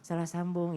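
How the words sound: It is said softly and gently.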